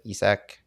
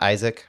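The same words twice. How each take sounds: First: "Isak" said EE-sak; "Isak" in the Scandinavian way, EE-sak; corrected pronunciation. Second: "Isaac" said EYE-zik; "Isaac" with long i and a z sound; English pronunciation. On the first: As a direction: say "Isak" with an ee first and a clear s. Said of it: "Not Isaac". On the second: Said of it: "but Isak Jensen". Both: Shown as a demonstration.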